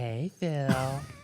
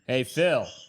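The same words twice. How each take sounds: First: It is said in a special dog-talk voice. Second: It is said in a plain, ordinary voice.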